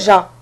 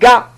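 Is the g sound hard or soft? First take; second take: soft; hard. First: The g is soft, like s in measure. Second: The g is hard, as in go. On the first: The speaker calls it wrong. "c'est pas ja" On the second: The speaker calls it right. "Il donne ga"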